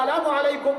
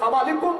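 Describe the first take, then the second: First: Every syllable of the greeting is said clearly. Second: The syllables are run together and shortened. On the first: It is a proper greeting of peace. The speaker calls it right. "সালামু আলাইকুম না বলে" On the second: It comes to mean a wish for death. The speaker calls it wrong. "সালামালাইকুম বলে অর্থ হয়ে যায় তুই মরি যা"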